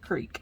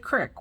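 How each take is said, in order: First: The word has a long 'ee' vowel. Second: The word has a short 'ih' vowel. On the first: This is not how locals say it. "we don't say creek" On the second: This is how locals say it. "we say crick"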